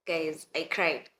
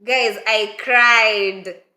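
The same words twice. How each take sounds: First: Slow, softer, lower confession; stifled. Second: Loud, slow, drawn-out announcement that you cried; dramatic confession. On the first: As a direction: hold the tears back and say "Guys, I cried" quietly and slowly. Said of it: "I just stifled the cry". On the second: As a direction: drag out "Guys, I cried" slowly and loudly, hamming it up. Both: Retold or imitated.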